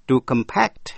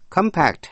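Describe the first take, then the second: First: "To compact" as com-PACT; stress on second syllable. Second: "Compact" as COM-pact; noun stress. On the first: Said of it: "nhấn mạnh vần nhì". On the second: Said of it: "danh từ". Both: Shown as a demonstration.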